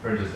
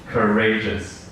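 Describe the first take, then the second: First: The stress falls on the first syllable. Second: The stress falls on the second syllable. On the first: The speaker calls it wrong. "Some people pronounce it as courageous" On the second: The speaker calls it right. "So it should be courageous"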